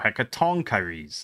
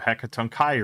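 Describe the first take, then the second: First: The stress falls on the syllable 'ton'. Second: The stress falls on the syllable 'chi'. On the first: "emphasis on tong" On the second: "Instead of chi"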